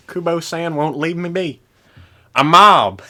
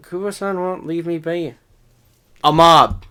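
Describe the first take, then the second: First: Heavy southern drawl, imitated; mock the thick southern accent. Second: Put-on southern accent. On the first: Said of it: "heavy southern accent there". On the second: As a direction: lay on a thick southern accent. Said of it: "What was with the heavy southern accent there?".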